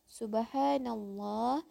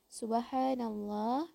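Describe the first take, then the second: No difference in how they are said.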